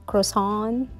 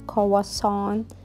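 First: It is said with an English pronunciation. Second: It is said with a French pronunciation. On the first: "how to pronounce it here" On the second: "we actually pronounce it in French"

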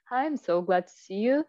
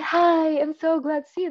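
First: It sounds calm, quiet and low-energy. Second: It sounds overly cheerful and forced.

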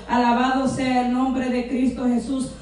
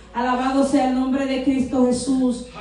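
The two takes are said the same way.

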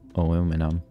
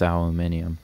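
First: It is said the American way, aluminum. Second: It is said the non-American way, aluminium.

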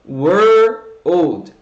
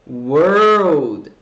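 The two takes are said the same way.

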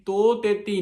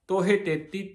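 First: The first word is said without an h sound. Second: The first word is said with an h sound. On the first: The speaker calls it wrong. "ਤੋ ਤੇਤੀ ਨਹੀਂ ਕਹਿਣਾ ਇਹਨੂੰ। ਕਈ ਵਾਰ ਕਈ ਹਾਹਾ ਨਹੀਂ ਬੋਲਦੇ" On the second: The speaker calls it right. "ਸਹੀ ਸਹੀ ਉਚਾਰਨ ਕਰਨਾ ਆ"

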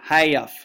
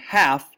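First: The vowel is drawn out into two syllables. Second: The vowel is said as one syllable. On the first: "they use things that might sound like two syllables" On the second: "instead of saying half"

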